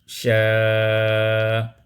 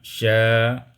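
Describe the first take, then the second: First: The vowel is held moderately, about four counts. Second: The vowel is held briefly, about two counts. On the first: "kita baca empat harakat" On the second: "dibaca dengan qasar"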